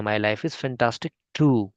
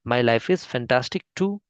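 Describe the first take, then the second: First: "too" drawn out, falling at the end; slow, stress on too. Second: "too" lifted with a rising end; slow, rising too. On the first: Teacher modelling the reply with weight on too. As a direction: lean on "too" and let it fall. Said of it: "आप बोल सकते हैं". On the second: Teacher repeating the reply with a rising too. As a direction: let "too" rise at the finish. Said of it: "T double O वाला". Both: Shown as a demonstration.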